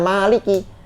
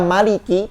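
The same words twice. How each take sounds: First: The vowel after the m is long. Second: The vowel after the m is short.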